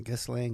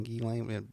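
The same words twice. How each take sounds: First: Ghislaine with the S sounded, GISS-lane; hard G and audible S in Ghislaine; one pronunciation of Ghislaine. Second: Ghislaine with silent S, GHEE-lane; hard G, no S in Ghislaine; other pronunciation of Ghislaine. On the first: Host puzzling over a hard name, Ghislaine as GISS-lane. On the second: Host trying another version of a hard name, Ghislaine as GHEE-lane. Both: Shown as a demonstration. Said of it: "the whole pronunciation deal".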